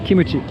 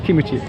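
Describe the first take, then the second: First: It is said with three syllables, kee-moo-chee. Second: The same.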